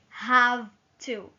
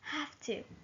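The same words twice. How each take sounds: First: The word 'have' ends in a V sound. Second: The word 'have' ends in an F sound. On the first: The speaker calls it wrong. "we don't say have to" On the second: The speaker calls it right. "You hear a little F between ha and to"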